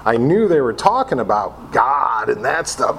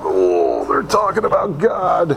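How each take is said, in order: First: Said in the usual way. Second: Higher, sing-song mock dread; mock alarm. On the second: Newcomer dreads God talk, higher mock dread. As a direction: echo it as if horrified. Mocking echo of own line.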